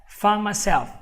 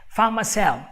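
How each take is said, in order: Both takes have the same delivery.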